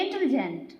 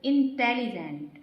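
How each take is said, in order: First: intelligent said fast in one breath, no gaps between syllables; rushed wrong way. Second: intelligent said slowly, with short gaps between its syllables; syllables with pauses. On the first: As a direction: run intelligent together quickly as the wrong example. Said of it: "ये बिल्कुल wrong होता है". (Intelligent को तेज़ी से, बिना रुके एक साँस में बोलना) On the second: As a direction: break intelligent into syllables, pausing between them. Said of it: "थोड़ा हमें कहीं पर बीच में जो है गैप". (इंटेलिजेंट को धीरे, अक्षरों के बीच रुककर बोलना) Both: Shown as a demonstration.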